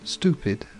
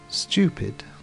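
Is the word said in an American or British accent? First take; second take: American; British. First: It is said in an American English accent. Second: It is said in a British English accent. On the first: "stupid in America" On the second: "Stupid in English"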